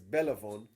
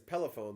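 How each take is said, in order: First: The word begins with a B sound. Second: The word begins with a P sound. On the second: "If he says pelephone, then he's Israeli"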